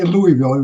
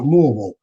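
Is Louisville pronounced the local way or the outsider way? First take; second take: outsider way; local way. First: It uses the outsider's pronunciation of the name. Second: It uses the local pronunciation of the name. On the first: The speaker calls it wrong. "you don't say Louisville" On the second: The speaker calls it right. "You pronounce it Louisville"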